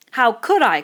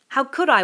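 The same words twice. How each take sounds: First: Piggy crying out indignantly, much louder and higher; an outraged protest. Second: Louder, higher indignant protest; a boy protesting again; Piggy protesting. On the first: Piggy protesting to Ralph, indignant cry. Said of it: "cried Piggy indignantly". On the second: Piggy protesting to Ralph again, indignant. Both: Acted.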